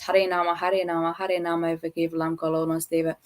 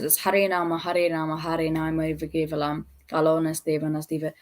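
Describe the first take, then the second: First: There is no pause after Kevalam. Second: There is a pause after Kevalam.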